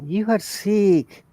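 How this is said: It is said as a flat, confirming statement. The speaker confirms that the listener is sick. "That is confirmation"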